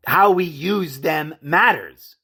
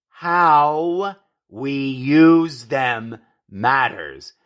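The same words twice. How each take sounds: First: "How we use them matters" said evenly, a little slowly; measured emphasis. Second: "how we use them matters" very slow, each word drawn out; word-by-word emphasis. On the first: Commentator telling folks words matter, measured emphasis on "How we use them matters". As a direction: state "How we use them matters" firmly in one phrase. First take of a repeated maxim. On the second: Commentator driving the point home, word-by-word emphasis on "how we use them matters". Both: Real, not acted.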